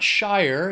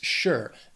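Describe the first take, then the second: First: The syllable rhymes with 'fire'. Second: The syllable rhymes with 'pure'. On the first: The speaker calls it wrong. "it's not Shire" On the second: The speaker calls it right. "It's sure"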